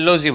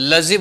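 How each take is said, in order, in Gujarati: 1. આ સ્વર પૂરો, ગોળ 'oh' અવાજ છે. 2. આ સ્વર ટૂંકો, હળવો 'uh' અવાજ છે. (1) "આપણે લોઝી બોલીએ છીએ" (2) "લઝી બોલાય છે"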